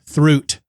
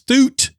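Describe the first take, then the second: First: The name begins with a 'thr' sound. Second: The name begins with a plain 'th' sound. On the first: The speaker calls it wrong. "not Throot" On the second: The speaker calls it right. "It's Thoot"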